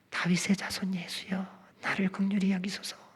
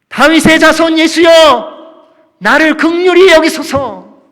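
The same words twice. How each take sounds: First: It is said quietly, in a small voice. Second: It is shouted in a raised voice.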